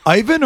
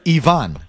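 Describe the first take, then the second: First: Ivan said EYE-vun; English pronunciation. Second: Ivan said ee-VAHN; native pronunciation. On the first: Host checking a caller's name, Ivan as EYE-vun. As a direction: stress the first syllable of Ivan, long I. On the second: Host offering the other reading, Ivan as ee-VAHN. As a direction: open ah ending on Ivan, starting with ee. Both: Shown as a demonstration. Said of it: "Is it Ivan or Ivan?".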